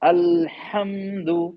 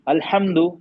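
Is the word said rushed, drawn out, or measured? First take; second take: measured; rushed. First: The sounds are held for a moderate length. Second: The word is said quickly without holding the sounds. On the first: The speaker calls it right. "ये मुनासिब है sir." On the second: The speaker calls it wrong. "ये सही नहीं, थोड़ा सा मतलब रुकते हुए पढ़ना है सर।"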